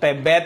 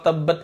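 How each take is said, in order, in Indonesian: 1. Kata itu diucapkan dengan aksen Minang. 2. Kata itu diucapkan dengan aksen standar yang biasa saja.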